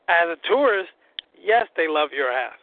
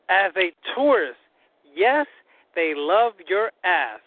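First: The sentence is spoken at a normal, quicker pace. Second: The sentence is spoken slowly and deliberately.

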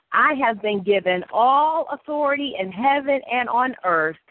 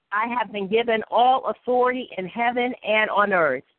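No difference in how they are said.

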